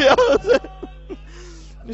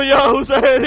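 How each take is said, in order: First: Drawn-out, much slower wail of یا حسین breaking into weeping; wailing cry. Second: A loud impassioned call of Ya Hussain. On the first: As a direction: stretch یا حسین into a slow sobbing wail. (یا حسین کو بہت آہستہ روتے ہوئے کھینچ کر) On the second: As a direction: call یا حسین out loud to the crowd. (یا حسین کو بلند آواز سے پکارنا) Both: Acted. Woman calls out before Zainab.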